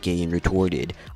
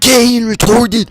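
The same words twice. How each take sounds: First: The voice is calm and soothing. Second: The voice is angry and forceful. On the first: "he's a lot calmer" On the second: "he just hops out the gate"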